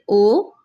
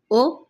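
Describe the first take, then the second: First: O held long, pitch rising; drawn-out o for contrast; long o vowel. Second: O cut short; brief o for contrast; short o vowel. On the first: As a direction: stretch out the o sound. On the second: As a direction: say the o sound briefly. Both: Shown as a demonstration. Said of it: "इन दोनों का difference करें".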